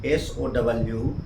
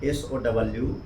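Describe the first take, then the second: The two takes are said the same way.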